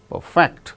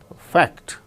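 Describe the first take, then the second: First: The stress is on the second syllable. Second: The stress is on the second syllable.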